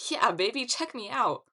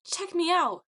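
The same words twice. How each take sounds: First: Loud swaggering brag; hammed-up cool-guy call; cocky show-off. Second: High, loud echo of a brag; high fangirl echo; echoing cheer. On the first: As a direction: strut it out for the crowd. Leo struts for the nymphs. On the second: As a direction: cheer it back pitched way up. Echo repeats the boast. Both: A narrator's reading.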